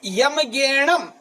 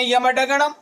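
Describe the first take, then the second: First: गैणम said slowly and clearly with a g, "gai-nam"; correct pronunciation, slow. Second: डगणम said with a d sound, the students' mistake; wrong pronunciation. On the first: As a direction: spell out गैणम slowly, syllable by syllable. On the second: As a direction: mispronounce डगणम with a d. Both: Shown as a demonstration. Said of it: "ये गलत है".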